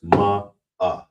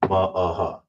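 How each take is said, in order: First: It ends on the vowel with no h. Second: It ends with a clearly pronounced h sound. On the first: The speaker calls it right. "It's just ma uh" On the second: The speaker calls it wrong. "You don't want to overpronounce like"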